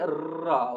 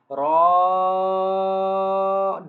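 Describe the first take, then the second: First: The vowel is light and kept short. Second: The vowel is bold and held long. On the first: The speaker calls it wrong. "don't say ra" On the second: The speaker calls it right. "Raw will be read boldly, raw will be long for two seconds"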